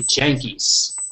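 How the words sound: The word starts with a j sound. "they say Jankies"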